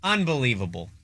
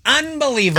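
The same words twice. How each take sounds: First: Said in the usual way. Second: Higher quoted catchphrase; imitating the Gooch. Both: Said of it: "As the Gooch would say".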